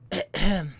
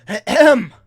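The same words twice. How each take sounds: First: Short mocking throat-clear; mocking ahem. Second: Loud, high throat-clearing; pointed ahem. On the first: The man leans over after the movie, mocking ahem. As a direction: mimic someone's ahem back at them. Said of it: "in a mocking way". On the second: Retold or imitated. Leaning over to the man on his phone, pointed ahem. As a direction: clear your throat loudly to get someone's attention.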